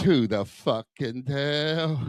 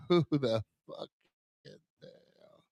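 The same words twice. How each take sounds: First: Said in the usual way. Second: Laughing. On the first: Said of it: "punchline repeated". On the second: Acted. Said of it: "punchline repeated laughing".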